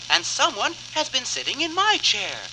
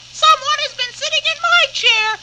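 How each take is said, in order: First: It is said in a middle-sized voice. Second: It is said in a squeaky voice.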